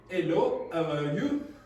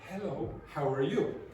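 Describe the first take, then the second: First: The h sound is dropped entirely. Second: The h is a soft, plain breath. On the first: "the H has totally disappeared" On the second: "Instead of"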